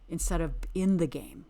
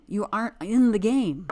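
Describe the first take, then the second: First: Said in the usual way. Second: Louder, "aren't" punched hard; emphatic. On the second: Real, not acted. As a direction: hit "aren't" like a verdict. Hammering the point home.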